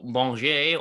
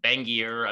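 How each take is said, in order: First: The name is given a French pronunciation. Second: The name is given an American pronunciation. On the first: "go full French kind of" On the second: "like a kind of Bangier Americanized kind of"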